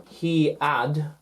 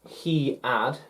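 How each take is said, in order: The two takes are said the same way.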